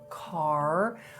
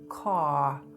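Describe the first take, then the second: First: The R after the vowel is pronounced. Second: The R after the vowel is dropped. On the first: "in a word like park or car" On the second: "drop the R when it follows a vowel"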